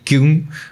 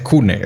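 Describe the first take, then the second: First: The name is said with English pronunciation. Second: The name is said with German pronunciation.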